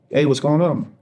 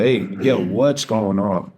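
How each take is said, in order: First: Higher-pitched, easy phone hello; raised pitch on a casual question; casual greeting. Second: Slow, drawn-out concerned question; concerned check-in. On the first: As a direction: retell a light, unsuspecting check-in. Casual phone greeting, before crying heard. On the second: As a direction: retell her gently pressing him for an answer. Girlfriend hears him crying, asks again. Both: Retold or imitated.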